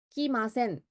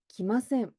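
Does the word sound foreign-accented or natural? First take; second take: foreign-accented; natural. First: It is said with a stiff, foreign-sounding accent. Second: It is said with natural intonation and pronunciation. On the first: The speaker calls it wrong. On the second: The speaker calls it right.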